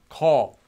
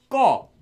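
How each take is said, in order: First: The first consonant is plain and lax. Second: The first consonant is tense and doubled. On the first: The speaker calls it wrong. "not as call" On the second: The speaker calls it right. "it will make that consonant a double version of itself"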